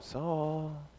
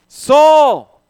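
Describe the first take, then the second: First: The name is said quietly and calmly. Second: The name is shouted loudly. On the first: The call is mild and gentle. The speaker calls it wrong. "it's not Christ going" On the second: The call is forceful and urgent. The speaker calls it right. "why did I yell that?"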